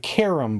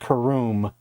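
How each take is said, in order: First: The second syllable has a short, weak vowel. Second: The second syllable has a long 'oo' vowel. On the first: "forgive my pronunciation of it, it was called a carom board" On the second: "some people may have pr- pronounced it caroom"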